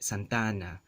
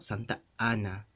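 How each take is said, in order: First: The two a's merge into one long vowel. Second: A glottal stop separates the two a's. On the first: This is the standard Spanish way. "in standard Spanish accent or dialect, this first phrase is going to be elongated with that vowel" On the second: This is the Philippine Spanish way. "There's that glottal stop"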